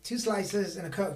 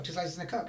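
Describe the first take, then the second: First: Muttered order. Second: Softer, trailing repeat with a rise; softer repeat of the order. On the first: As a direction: rattle off the order like a regular. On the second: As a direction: repeat it quieter, almost to yourself. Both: Retold or imitated. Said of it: "everybody's just like".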